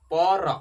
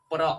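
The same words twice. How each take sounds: First: पर said loudly with the r pulled apart into a full syllable; drawn out pa-r. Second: प्र said as one tight syllable, the r cluster close on the p; saying pra. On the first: Teacher contrasting for students the split पर with प्र. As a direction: break it open and call out पर. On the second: Teacher showing students the sound प्र as one syllable. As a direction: clip प्र short with the r tucked in. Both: Shown as a demonstration. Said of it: "जैसे उच्चारण कीजिए".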